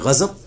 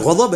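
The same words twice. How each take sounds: First: The middle consonant is a z sound. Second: The middle consonant is a heavy d-like sound. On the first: This is the Urdu pronunciation. "Urdu में गजब, दुआत को हम ज़ाद पढ़ देते हैं" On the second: This is the Arabic pronunciation. "अरबी में गजब है"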